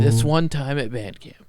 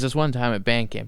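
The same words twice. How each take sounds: First: It is said in an imitated character voice. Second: It is said in the speaker's normal voice.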